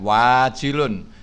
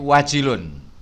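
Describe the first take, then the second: First: The first vowel is long, like the fa'ilun pattern. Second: The first vowel is short, not like fa'ilun. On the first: The speaker calls it wrong. "bukan wajilun" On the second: The speaker calls it right. "tapi wajilun"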